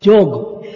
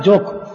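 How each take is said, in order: First: జోగ్ said with a voiced g ending, the right name. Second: జోక్ said with a hard k ending, the wrong name. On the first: Preacher correcting the servant's name, voiced g ending. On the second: Preacher warning listeners off the wrong name, hard k. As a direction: say జోక్ with a clipped k, as the mistake to avoid. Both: Shown as a demonstration. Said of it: "not జోక్".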